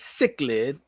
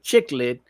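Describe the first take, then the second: First: The word begins with a 'sick' sound. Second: The word begins with a 'chick' sound. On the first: The speaker calls it right. "but it's cichlid" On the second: The speaker calls it wrong. "I just do some New York and made it chiclet"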